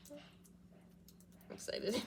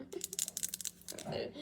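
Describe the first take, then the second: First: Slow, breathy whispered excitement; excited whisper. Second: Slow whisper through a laugh; giggly whisper. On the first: Vlogger whispering her excitement to viewers. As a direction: hush it out, thrilled. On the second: Vlogger giggling her excitement in a whisper. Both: Real, not acted.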